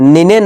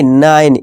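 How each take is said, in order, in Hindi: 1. अंतिम e एक स्वर की तरह बोला जाता है। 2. अंतिम e बिल्कुल नहीं बोला जाता। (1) "निने नहीं नाइन, ई को भूल जाना" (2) "ई का कोई अपना उच्चारण नहीं होगा"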